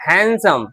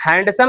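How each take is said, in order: First: "हैंडसम" said as HAN-sum, no D; "हैंडसम" running straight from n to s; silent D. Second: "हैंडसम" with the D clearly sounded, HAND-sum; "हैंडसम" said as written, hand-sum. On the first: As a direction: drop the D in "हैंडसम" as the corrected form. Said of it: "डी को हम नहीं पढ़ते हैं". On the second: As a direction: voice the D in "हैंडसम" as the wrong example. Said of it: "हैंडसम नहीं". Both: Shown as a demonstration.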